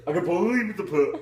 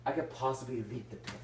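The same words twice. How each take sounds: First: Fast, loud mock-doubtful; hammed-up dubious. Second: Said in the usual way. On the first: Shown as a demonstration. Rereading a line to act it dubiously. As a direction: overplay the doubt. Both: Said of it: "let's say this dubiously".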